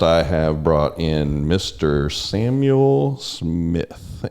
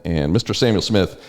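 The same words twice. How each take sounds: First: Drawn-out, slow announcer-style intro of the guest; slow host introduction. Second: Said in the usual way. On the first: Acted. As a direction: present the guest slowly like a showman.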